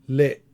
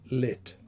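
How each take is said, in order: First: The final t is unreleased with a glottal catch. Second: The final t ends with a small puff of air. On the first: "unreleased voiceless alveolar stop with glottal reinforcement" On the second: "realized as a final release of a voiceless alveolar stop"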